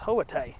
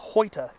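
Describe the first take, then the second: First: It is said unlike the spelling, ending 'tie'. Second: It is said the way it is spelled. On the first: The speaker calls it right. "is supposed to be pronounced Hoatai" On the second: The speaker calls it wrong. "It looks like it's spelled Hoita"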